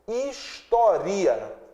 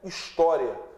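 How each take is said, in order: First: The i is a full vowel in its own syllable. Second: The i glides weakly into the final a. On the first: The speaker calls it wrong. "se ele fosse vogal, a pronúncia seria história" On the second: The speaker calls it right. "a pronúncia não seria história"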